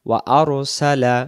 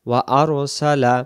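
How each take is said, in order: Both takes have the same delivery.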